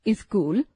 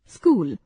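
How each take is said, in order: First: स्कूल said as इस्कूल with an extra i before the s; wrong pronunciation. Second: Said in the usual way. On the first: Shown as a demonstration. Hindi teacher showing students the common mistake, deliberately wrong. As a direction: add a short i sound in front: इस्कूल. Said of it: "अशुद्ध उच्चारण". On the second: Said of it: "शुद्ध उच्चारण".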